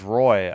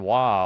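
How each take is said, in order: First: The name is said with an English 'roy' sound. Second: The name is said with a French 'wa' sound. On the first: The speaker calls it right. "so the Caps guy is Roy" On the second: The speaker calls it wrong. "I've been saying Wa all this time, and I was wrong"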